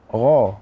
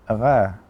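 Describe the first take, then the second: First: The gh sound is heavy and thick. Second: The gh sound is light and thin. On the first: The speaker calls it right. "huruf yang tebal juga" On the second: The speaker calls it wrong. "bukan gha"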